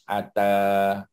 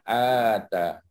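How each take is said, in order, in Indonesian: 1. Vokalnya diucapkan pendek. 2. Vokalnya dipanjangkan.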